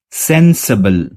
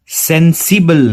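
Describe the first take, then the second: First: सेंसिबल slow, ending in reduced अबल; सेंसिबल drawn out with the ि swallowed; right take. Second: सेंसिबल with a clear इबल ending; wrong take. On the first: Teacher giving students the correct form, slow model. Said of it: "अगला word है सेंसिबल". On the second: Teacher showing students the wrong way, mock wrong. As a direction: mistaken सेंसिबल, सि fully sounded. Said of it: "नहीं". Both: Shown as a demonstration.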